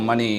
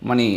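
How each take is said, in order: Both takes have the same delivery.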